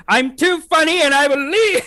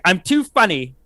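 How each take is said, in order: First: High, drawn-out mock outrage; hammed-up diva. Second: Said in the usual way. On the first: Co-host playing someone too funny for the show, in hammed-up indignation. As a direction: stretch it upward into a theatrical squeal.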